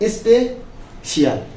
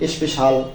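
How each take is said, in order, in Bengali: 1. শেষটা দুই অংশে বলা হয়: shee-al। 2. শেষটা এক অংশে বলা হয়: shal।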